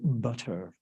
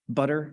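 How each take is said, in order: First: The middle t is a clear t. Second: The middle t is a quick flap. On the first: The speaker calls it wrong. "Nobody says butter, right? You don't pronounce the T" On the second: The speaker calls it right. "We call that a flap"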